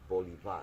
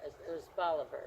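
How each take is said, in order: First: "Bolivar" with Spanish vowels, stress late; "Bolivar" in the original Spanish way; original Spanish pronunciation. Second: "Bolivar" stressed on the first syllable; "Bolivar" the small-town American way; local Americanized pronunciation. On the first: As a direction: say "Bolivar" as bo-lee-VAR. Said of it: "the original pronunciation, the accent is". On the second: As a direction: say "Bolivar" as BAH-luh-ver. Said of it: "they called it Bolivar for Simon". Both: Shown as a demonstration.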